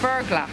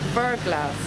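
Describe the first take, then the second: First: The name ends without any s sound. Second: The name ends with an audible s sound. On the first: The speaker calls it right. "It's actually pronounced" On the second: The speaker calls it wrong. "We we pronounced it as we were pronouncing this as uh"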